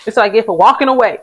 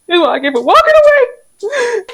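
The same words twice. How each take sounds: First: Said in the usual way. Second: Sing-song higher echo of the line just said; mock high voice. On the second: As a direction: repeat the line much higher, in a put-on voice. Repeats the line in a voice.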